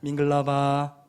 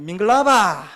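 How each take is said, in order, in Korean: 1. 평평한 음높이로 말합니다. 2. 한국 지방 사투리 억양으로 말합니다. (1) "그대로 평성으로" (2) "이 경상도 분들은 이렇게 밍글라바 이렇게 하시는데 그렇게 하시면 안 되고요"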